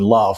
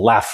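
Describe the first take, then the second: First: The vowel is a long, broad A. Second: The vowel is a short, flat A.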